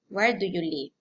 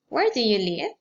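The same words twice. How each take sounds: First: The voice falls at the end. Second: The voice rises at the end. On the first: "Following intonation" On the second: "Rising intonation"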